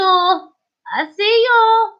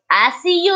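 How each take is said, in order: First: Drawn out slowly and higher; slow, high teasing singsong; teasing sing-song. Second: Said in the usual way. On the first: Acted. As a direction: stretch it out like a playful spook. Teasing viewer under spotlight.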